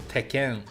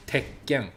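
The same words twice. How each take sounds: First: "Tekken" as an unbroken "te-ken" with one light k; no consonant emphasis. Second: "Tekken" with a silent held stop before "ken"; doubled consonant. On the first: Teacher contrasting two forms, single-k "Tekken". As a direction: run "Tekken" straight through, no held stop. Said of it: "So it goes from Tekken to". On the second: Teacher contrasting two forms, doubled k in "Tekken". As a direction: swallow the middle, then land harder on the k. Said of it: "emphasis on the consonant sound". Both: Shown as a demonstration.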